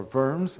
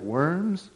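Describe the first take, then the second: First: "Worms" said with a German V at the start; German pronunciation. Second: Said in the usual way. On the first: Shown as a demonstration. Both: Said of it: "as the German folks would say".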